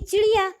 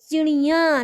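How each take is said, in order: First: The final vowel is plain, not nasal. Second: The final vowel is nasalized through the nose. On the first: There is one bird. "जो एक चिड़िया है तो उसको हम बोलेंगे चिड़िया" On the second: There are many birds. "नाक से बोला जाता है उसको"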